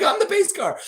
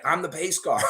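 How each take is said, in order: First: Much higher and louder, through laughter; laughing high. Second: Said in the usual way. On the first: Retold or imitated. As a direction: crack up while declaring it. Driver repeats, laughing.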